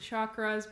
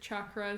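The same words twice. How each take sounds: First: The word is said in a common non-Indian way. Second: The word is said the way it's said in India. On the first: "Some people pronounce it" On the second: "in India they pronounce it"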